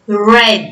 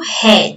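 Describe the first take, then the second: First: The R is an English-style sound. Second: The R is a Portuguese-style sound. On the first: The speaker calls it right. "eu leio red. Esse R mais, ó" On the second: The speaker calls it wrong. "eu não leio red"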